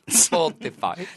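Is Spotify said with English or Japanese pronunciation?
English. It is said with an English-like pronunciation. "なんで急にネイティブ発音に"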